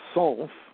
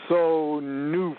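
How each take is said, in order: First: It is said as one short syllable. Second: Extra vowels make it three syllables. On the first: This follows the word's plain spelling. "you could pronounce it sonf" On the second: This is expanded to be easier to pronounce. "they put a vowel sound behind every consonant"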